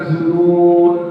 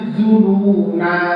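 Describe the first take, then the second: First: The word ends on a consonant, no vowel. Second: The word ends with a long final vowel. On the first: The speaker calls it wrong. "bukan zunun" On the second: The speaker calls it right. "dibaca panjang"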